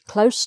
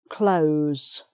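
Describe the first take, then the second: First: The final consonant is a hissing S sound. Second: The final consonant is a buzzing Z sound. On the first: It is the adverb meaning near. "close to the window, then it's an S sound" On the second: It is the verb meaning to shut. "the sound is a Z sound, z, z, as with the word close"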